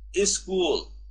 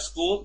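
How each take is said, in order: First: An extra vowel is added before the word. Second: The word starts directly with the consonant cluster. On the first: "they say is school" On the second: "Instead of school"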